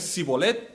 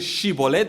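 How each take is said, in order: First: The word begins with a plain s sound. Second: The word begins with an sh sound. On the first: The speaker is from Ephraim. "dices Sibolet, te hemos cazado. Eres de Efraín" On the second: This is how the people of Gilead say it. "No puedes decir Shibolet"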